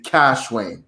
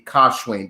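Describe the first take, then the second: First: The first syllable sounds like cash. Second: The first syllable sounds like kosh. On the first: This is how people say it in America. The speaker calls it wrong. "here in America, um, you will pronounce the C, the K as a C" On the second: This is the original pronunciation from home. The speaker calls it right. "the proper way to pronounce it will be Kashwain"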